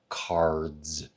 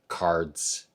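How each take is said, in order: First: The word ends in a buzzing Z sound. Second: The word ends in a hissing S sound. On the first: The speaker calls it right. "these all have a voiced final consonant sound" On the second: The speaker calls it wrong. "None of those have that vocalized Z sound on them"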